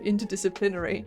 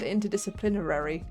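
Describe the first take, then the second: First: The word is said without an extra syllable. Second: The word is said with an extra syllable. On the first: The speaker calls it right. "instead of" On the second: The speaker calls it wrong. "I put an extra syllable in that"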